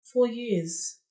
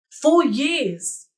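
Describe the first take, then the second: First: Quieter, deflated echo; hushed after the outburst; subdued repeat. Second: Raised, indignant exclamation; higher-pitched cry of outrage; bitter outburst. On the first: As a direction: let it sink in, resigned. Same words repeated, sinking in. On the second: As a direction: burst out in disbelief at the waste. Bitter outburst over lost years. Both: Acted.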